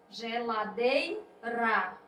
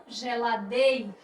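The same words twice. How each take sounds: First: Geladeira with a light tapped R in the last syllable; correct soft R. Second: Geladeira with a hard aspirated H-like R in the last syllable; wrong strong R. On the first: Teacher showing the correct form of geladeira, soft R. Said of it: "esta é a forma correta". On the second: Teacher showing the wrong form of geladeira, strong R. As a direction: mispronounce geladeira, ending it in a strong HA. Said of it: "essa é a forma errada". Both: Shown as a demonstration.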